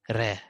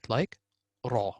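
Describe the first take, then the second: First: The r sounds light and thin. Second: The r sounds heavy and full. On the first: "You can say ra very simple" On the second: "you can say ra very uh, magnified"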